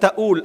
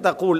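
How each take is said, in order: First: The middle consonant is a glottal stop. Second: The middle consonant is a 'q' sound.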